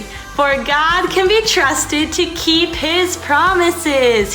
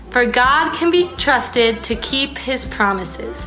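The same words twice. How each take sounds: First: It is said very loudly, almost yelled. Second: It is said at a normal speaking volume. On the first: "we're gonna do it nice and loud" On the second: "normally, nicely"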